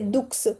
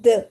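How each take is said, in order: First: The final x is pronounced as ks. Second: The word ends on the vowel, x silent. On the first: The speaker calls it wrong. "we don't say दुक्स" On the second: The speaker calls it right. "we say the. x is silent"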